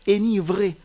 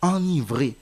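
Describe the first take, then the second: First: The first syllable is a plain, non-nasal vowel. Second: The first syllable is a nasal vowel. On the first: The speaker calls it wrong. "Même si le mot s'écrit avec un seul N, vous n'allez pas lire enivrer" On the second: The speaker calls it right. "qui veut dire rendre ivre"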